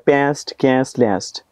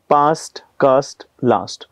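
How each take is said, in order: First: It is said in an American accent. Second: It is said in a British accent.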